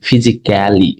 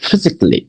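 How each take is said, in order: First: The '-cally' ending is pronounced fully and clearly. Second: The '-cally' ending is reduced and barely sounded. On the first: This is how Bangladeshi and Indian speakers usually say it. "আমরা সাধারণত বলে থাকি ফিজিক্যালি" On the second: This is how native English speakers say it. "তারা সব সরাসরি বলে দিচ্ছে ফিজিক্যালি and মেন্টালি"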